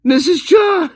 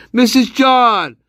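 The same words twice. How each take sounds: First: High, full-throated shout of the name. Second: Slow, drawn-out call of the name. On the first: Gamer screams the name at the game character. Calling out louder again. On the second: Gamer calls out to a character mid-game. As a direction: call the name across the room. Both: Real, not acted.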